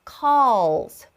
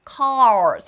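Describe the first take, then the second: First: The word has a clear L sound. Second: The word has an R-like sound instead. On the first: The speaker calls it right. "앞쪽에 있는 혀는 절대 구부리시면 안 됩니다" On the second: The speaker calls it wrong. "R 발음 같이 나와요 ... 안 돼요"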